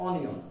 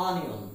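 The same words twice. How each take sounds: First: অনিয়ন said as "o-ni-on"; rounded Bengali o opening অনিয়ন; everyday Bengali-English অনিয়ন, "o-ni-on"; common mispronunciation. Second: অনিয়ন said as "an-ion"; corrected pronunciation. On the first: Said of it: "আমরা এটাকে কি উচ্চারণ করে থাকি?". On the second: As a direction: open the first vowel of অনিয়ন towards "un". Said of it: "কিন্তু উচ্চারণটা হবে". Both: Shown as a demonstration.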